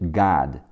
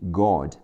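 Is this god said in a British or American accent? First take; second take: American; British. First: It is said with an American-style vowel. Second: It is said with a British-style vowel.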